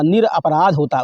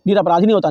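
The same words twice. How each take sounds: First: "निरपराध" said slowly and deliberately; correct form slow. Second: Teacher rejecting the wrong form, stressing नहीं; wrong form stressed. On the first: Teacher giving students the right form, slow and deliberate. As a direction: spell out the right word, slowly. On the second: "नहीं" hit hard to reject निरपराधी. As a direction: stress on नहीं in "निरपराधी नहीं होता", a firm correction. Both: Shown as a demonstration.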